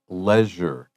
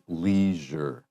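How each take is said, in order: First: It is said with a British pronunciation. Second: It is said with an American pronunciation. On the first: "sometimes also pronounced leisure. That's more for British English" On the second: "Most Americans will say leisure"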